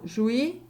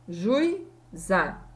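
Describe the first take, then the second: First: The u and i blend into one syllable. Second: The u and i are in separate syllables. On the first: The speaker calls it wrong. "Eu não falo juí" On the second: The speaker calls it right. "Eu pronuncio separado"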